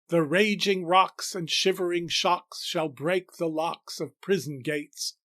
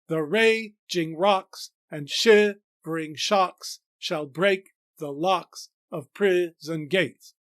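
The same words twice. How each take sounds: First: The stresses are spoken naturally, without exaggeration. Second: The metrical stresses are strongly exaggerated throughout.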